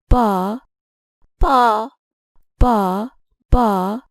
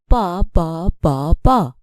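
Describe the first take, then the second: First: The second syllable is said on higher pitch. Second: All four syllables sound the same, none stressed. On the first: "I have used a higher pitch for the second ba" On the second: "Here we have four identical syllables"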